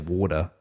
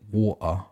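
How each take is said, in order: First: The middle T sounds like a D. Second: The middle T is a glottal stop. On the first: "try and sound American and say water" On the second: "That's how I used to naturally say it"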